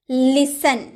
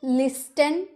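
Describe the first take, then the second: First: लिसन with no t; लिसन said as lis-en; silent t. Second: लिस्टन with a t; mock wrong लिस्टन, rising; wrong t sounded. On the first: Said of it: "आप कभी इसे लिस्टन बोलते हैं?". (लिसन, ट मौन) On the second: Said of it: "नहीं ना". (गलत लिस्टन) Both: Shown as a demonstration.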